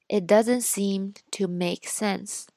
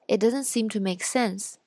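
First: It is read at a slower speaking speed. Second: It is read at a normal speaking speed. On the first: "然后再读一遍慢一点的" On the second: "先读一遍正常语速的"

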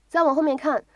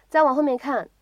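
The two takes are said the same way.

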